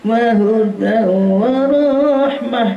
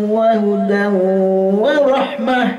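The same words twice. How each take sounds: First: The final word's vowel is drawn out long. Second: The final word's vowel is kept short. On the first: The speaker calls it wrong. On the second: The speaker calls it right.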